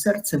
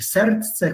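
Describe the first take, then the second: First: Said in the usual way. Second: "serce" with a d sounded before the c; older pronunciation. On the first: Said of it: "choć dzisiaj jest serce". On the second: Shown as a demonstration. Lecturer quoting older Polish, "serce" with the d kept. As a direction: keep the old cluster in "serce", as serdce. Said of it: "mówiliśmy serce, choć dzisiaj jest serce".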